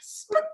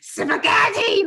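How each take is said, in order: First: It is said in a sad voice. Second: It is said in an angry voice.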